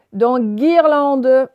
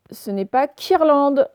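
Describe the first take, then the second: First: Guirlande, le g dur et fort, très lent; gu dur bien marqué. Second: Quirlande prononcé avec un k au début; mauvaise prononciation avec k. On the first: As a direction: articuler guirlande lentement et fort. (dire guirlande très lentement, le g bien appuyé) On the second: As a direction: montrer l'erreur quirlande, en k. (prononcer quirlande avec un k, pour montrer l'erreur) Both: Shown as a demonstration.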